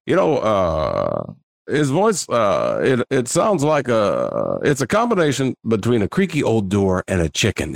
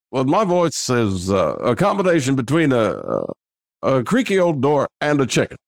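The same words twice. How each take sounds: First: A hint of slow Obama drawl; half-done Barack Obama voice; Obama voice, lightly. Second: Full Obama impression at a measured pace; Barack Obama impression. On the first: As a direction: ease into a light Obama impression. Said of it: "is what I say". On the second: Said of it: "And that is Barack Obama".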